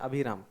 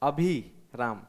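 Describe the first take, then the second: First: The vowel after 'abh' is kept short. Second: The vowel after 'abh' is held long. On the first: "इसमें अभिराम छोटा" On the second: "वो अभी लंबा हो गया"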